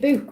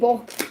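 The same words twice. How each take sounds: First: Book is said in a Stoke-on-Trent accent. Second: Book is said without the Stoke-on-Trent accent. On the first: This is how people say it locally. "I say book" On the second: This is not how people say it locally. "I don't say book where I'm from"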